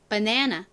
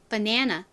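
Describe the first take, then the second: First: It is said with American vowels and reduced syllables. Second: The same.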